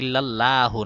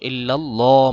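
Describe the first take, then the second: First: The 'l' sound is said thin and light. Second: The 'l' sound is said thick and heavy. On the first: The speaker calls it wrong. "না" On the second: The speaker calls it right. "মোটা করে"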